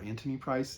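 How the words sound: The name is said with a British pronunciation.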